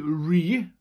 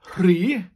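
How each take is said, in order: First: The word begins with a plain r sound. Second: The word begins with a breathy rh sound. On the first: "you can just say ri" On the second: "the RH sound"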